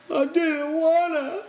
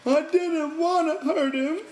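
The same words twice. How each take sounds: First: High, slow tearful whine; crying. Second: High, slow tearful whine, stretching wanna; crying. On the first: Lenny cries to the men over Curly's hand, tearful. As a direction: cry it out like a guilty child. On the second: Lenny cries to the men he didn't mean harm, tearful. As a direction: sob the whole line like a guilty child. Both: A narrator's reading. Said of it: "Lenny cried".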